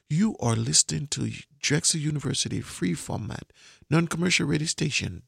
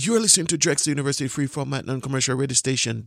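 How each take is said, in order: First: It is said slowly. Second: It is said fast.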